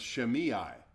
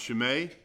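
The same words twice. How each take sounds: First: The name is given an English-style pronunciation. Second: The name is given a Hebrew-style pronunciation. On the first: "If you want to go the English route" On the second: "If you want to go the Hebrew route"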